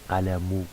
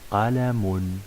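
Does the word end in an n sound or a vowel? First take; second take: vowel; n sound. First: The word ends on a vowel without n. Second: The word ends with a final n sound. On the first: The speaker calls it wrong. "On va pas dire qalamu" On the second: The speaker calls it right. "on va dire euh, qalamun"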